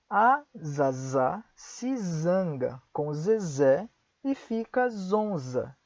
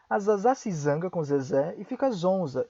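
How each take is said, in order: First: It is said at a slower pace. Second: It is said at a faster pace.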